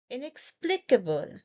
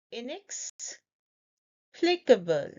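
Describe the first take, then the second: First: Said in the usual way. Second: "Inexplicable" slowly, pause after "inex"; broken into parts. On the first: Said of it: "Say it with me". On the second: Shown as a demonstration. Teacher breaking down the pronunciation, slow in two parts. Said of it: "I will break down the pronunciation".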